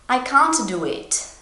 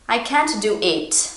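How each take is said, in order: First: The pitch does not drop at the end. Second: The pitch drops down at the end. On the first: The speaker calls it wrong. "This is how English learners would say this sentence" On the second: The speaker calls it right. "And it drops down"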